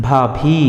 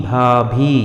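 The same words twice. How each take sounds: Both takes have the same delivery.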